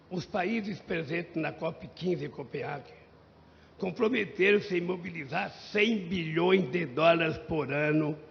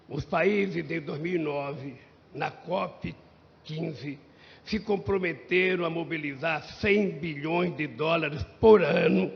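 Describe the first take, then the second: First: Said in the usual way. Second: "cem bilhões de dólares por ano" repeated slower, "por ano" punched loud; emphatic repeat. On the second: Shown as a demonstration. ("por ano" repetido com ênfase forte) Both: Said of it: "Eu vou repetir".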